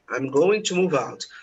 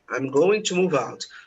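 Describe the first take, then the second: First: Going to is said fully as two words. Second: Going to is said fully as two words.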